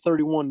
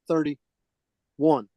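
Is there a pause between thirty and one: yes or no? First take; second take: no; yes. First: Thirty-one is said smoothly without a pause. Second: There is a pause between thirty and one. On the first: It names a single month of thirty-one days. The speaker calls it wrong. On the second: It is a thirty-day month plus one extra day. The speaker calls it right.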